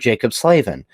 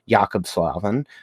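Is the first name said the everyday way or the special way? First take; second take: everyday; special. First: The first name has an ordinary, everyday pronunciation. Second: The first name has a careful, special pronunciation.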